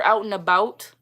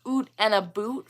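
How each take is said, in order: First: Said in the usual way. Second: "Oot and a boot" with long OO vowels; TV-Canadian caricature, "boot" for "about"; exaggerated Canadian vowels. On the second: Shown as a demonstration. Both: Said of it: "for out and about".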